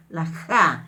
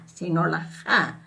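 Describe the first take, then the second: First: Said in the usual way. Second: Ja with the jota plus an extra breath of h; aspirated ja. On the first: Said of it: "no es la J limpia como en castellano". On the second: Shown as a demonstration. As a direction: breathe out after the j in ja. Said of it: "Acompañado de la H".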